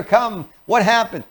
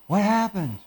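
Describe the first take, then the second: First: High-pitched, pushy concern; too high and eager. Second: Hushed, higher-pitched worried question; acted fearful concern. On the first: Parent rushing to a crying child, too upbeat. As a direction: jump in brightly with the question. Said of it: "That's too high for them. It's too fast". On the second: Parent approaching a crying child, quietly worried. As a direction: ask it softly, with alarm. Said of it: "remember, you're using fear". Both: Shown as a demonstration.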